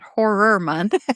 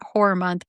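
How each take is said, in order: First: The first word sounds like the intended word. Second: The first word sounds like a different word. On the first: The speaker calls it right. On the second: The speaker calls it wrong.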